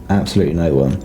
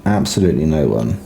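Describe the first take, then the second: No difference in how they are said.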